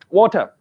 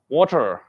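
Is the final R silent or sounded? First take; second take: silent; sounded. First: The final R is not pronounced. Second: The final R is clearly pronounced. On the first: "no R" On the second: "When you say American, R is there"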